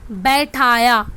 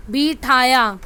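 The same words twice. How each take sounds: First: बैठाया said with an open ai, bai-tha-ya; correct form. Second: बिठाया said with a short i, bi-tha-ya; wrong form. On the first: Teacher showing pupils the correct word बैठाया with ai. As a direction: read बैठाया properly, full बै vowel. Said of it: "जो right one है वो हमारा कौन सा है". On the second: Teacher showing pupils the wrong spelling बिठाया with short i. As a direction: read बिठाया as the misspelt version, short बि. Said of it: "यहाँ पे बिठाया और बैठाया". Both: Shown as a demonstration.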